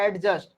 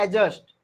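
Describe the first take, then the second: First: A d sound is heard before the j. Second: No d sound is heard before the j. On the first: The speaker calls it wrong. "जो आप बोलते हैं एडजस्ट" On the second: The speaker calls it right. "लेकिन वो होता है एडजस्ट"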